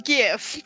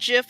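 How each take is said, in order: First: It begins with a hard G sound. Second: It begins with a soft G sound. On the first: The speaker calls it right. "Graphic with a hard G" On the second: The speaker calls it wrong. "It is not GIF"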